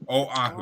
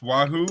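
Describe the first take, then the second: First: The word begins with an 'oh' sound. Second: The word begins with a 'wa' sound. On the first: The speaker calls it right. "I stand corrected" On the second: The speaker calls it wrong. "Is this Wahoo or what?"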